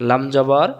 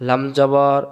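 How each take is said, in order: The two takes are said the same way.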